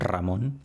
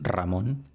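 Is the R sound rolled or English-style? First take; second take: rolled; rolled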